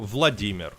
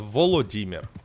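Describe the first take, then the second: First: The name is said in its shorter Russian form. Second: The name is said in its longer Ukrainian form. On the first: "It's Russian version" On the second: "It's Ukrainian version"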